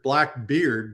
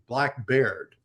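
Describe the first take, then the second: First: The name's second word rhymes with 'feared'. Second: The name's second word rhymes with 'laird'. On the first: This is the modern pronunciation. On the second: This is how it was said in 1718.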